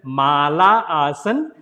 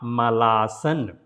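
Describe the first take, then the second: First: The vowel after mal is kept and sounded fully. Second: The vowel after mal is dropped and shortened. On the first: It names the garland. The speaker calls it right. "So it's a mala asan" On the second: It sounds like a word for poop. The speaker calls it wrong. "not malasan"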